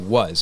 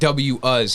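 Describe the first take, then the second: First: The first letter is spoken as a sound. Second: The first letter is spoken as its name. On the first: The speaker calls it right. "you say was, because that's the sound a W makes" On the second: The speaker calls it wrong. "you wouldn't be like W us"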